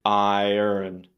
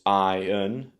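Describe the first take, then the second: First: An American accent with an R sound. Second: A British accent with no R sound. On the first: "the American version would be with an R sound, the second syllable" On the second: "in British English, it would be iron, with the stress on the first syllable"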